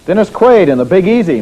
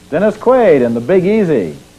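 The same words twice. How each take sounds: First: The names are read very fast. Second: The names are read more slowly. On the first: The speaker calls it wrong. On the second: The speaker calls it right.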